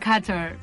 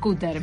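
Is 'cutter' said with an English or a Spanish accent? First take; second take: English; Spanish. First: It is said with an English pronunciation. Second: It is said with a Spanish pronunciation. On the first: "En inglés uno dice cutter" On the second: "pero uno diría, pasame el cutter"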